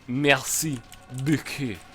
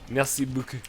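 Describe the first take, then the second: First: The word beaucoup is said with strong emphasis. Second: The word beaucoup is said flat, without emphasis. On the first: The speaker calls it wrong. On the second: The speaker calls it right.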